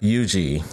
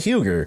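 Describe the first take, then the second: First: The name is said with the local pronunciation. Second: The name is said with an outsider's pronunciation. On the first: The speaker calls it right. "And that's how you pronounce it" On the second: The speaker calls it wrong. "if you're a foreigner, you're going to say"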